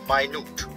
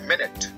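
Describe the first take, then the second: First: The first syllable sounds like 'my'. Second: The first syllable sounds like 'min'. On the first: It means tiny. "इसका दूसरा pronunciation है माइन्यूट" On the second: It means a unit of time. "Unit of time"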